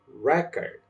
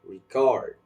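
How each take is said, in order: First: The stress is on the first syllable. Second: The stress is on the second syllable. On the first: It is used as a noun. "The first one will sounds like record" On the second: It is used as a verb. "the other one will sounds record"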